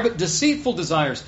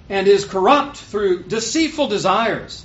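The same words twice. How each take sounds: First: Deceitful leaned on, falling at the end; stress on deceitful. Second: Said in the usual way. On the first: Shown as a demonstration. Preacher setting deceitful against any old desire, stressed. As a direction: land the weight on deceitful. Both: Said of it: "Not just any old desire".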